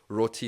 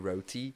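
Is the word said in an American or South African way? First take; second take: South African; American. First: It is said in a South African pronunciation. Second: It is said in an American pronunciation.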